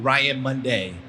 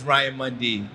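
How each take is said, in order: First: The surname sounds like the word Monday. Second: The surname ends in a plain 'dee' sound. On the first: The speaker calls it wrong. "mispronouncing my name and calling me Ryan Monday" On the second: The speaker calls it right. "There is no A in my name. It is Ryan Mundy"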